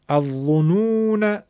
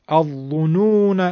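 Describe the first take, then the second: Both takes have the same delivery.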